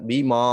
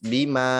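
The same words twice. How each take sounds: First: The 'ma' is said with a thick, heavy sound. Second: The 'ma' is said with a thin, light sound. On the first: The speaker calls it wrong. "Tebal semua suaranya" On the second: The speaker calls it right. "dibacanya tipis"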